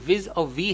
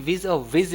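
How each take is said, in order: First: The final syllable is said as 'vee'. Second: The final syllable is said as 'viz'. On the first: The speaker calls it right. "ये विज और वी है" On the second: The speaker calls it wrong. "ये विज और विज नहीं है"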